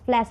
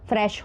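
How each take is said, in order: First: The word is said with an L sound. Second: The word is said with an R sound. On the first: The speaker calls it wrong. "जिसको आप फ्लैश फ्लैश बोलते हो" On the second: The speaker calls it right. "फ्रेश होता है पहली बात तो वो"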